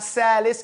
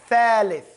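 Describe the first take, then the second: First: The word begins with an s sound. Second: The word begins with a th sound. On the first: The speaker calls it wrong. "It's not salis" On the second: The speaker calls it right. "Stick your tongue out"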